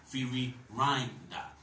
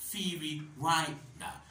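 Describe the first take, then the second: First: The second 'ri' is said like 'rye'. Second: The second 'ri' is said like 'rye'.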